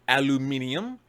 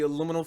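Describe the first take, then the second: First: It is said the British way, aluminium. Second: It is said the American way, aluminum.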